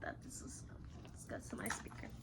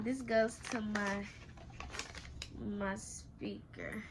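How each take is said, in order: First: Quiet whisper to herself. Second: Said in the usual way. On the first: Real, not acted. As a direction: breathe the words. Repeats line in whisper.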